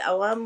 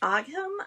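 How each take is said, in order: First: The word is said with an Irish pronunciation. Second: The word is said with an English pronunciation. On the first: "when I was over there, they said Ogham" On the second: "So English can pronounce it Ogham"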